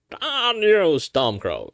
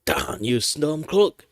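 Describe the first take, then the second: First: High strained thief voice; cursing the rebel, high and loud; horse thief voice. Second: Lightly voiced thief, rising; a second try at the thief; horse thief voice. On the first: Acted. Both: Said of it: "let's do the horse thief".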